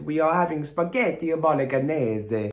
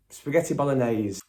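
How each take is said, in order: First: Slow mock-Italian accent, raised and stretched; comic Italian accent with extra vowels on the ends; bad Italian accent. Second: Said in the usual way. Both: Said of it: "rubbish accent".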